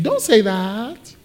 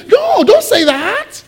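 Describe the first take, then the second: First: Slow, drawn-out mock plea; Peter. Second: Very high, drawn-out pleading; Peter. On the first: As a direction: quote the protest slowly, stretching the end. Quotes Peter's protest more softly. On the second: Retold or imitated. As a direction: stretch it into a high dismayed protest. Imitates Peter protesting to Jesus.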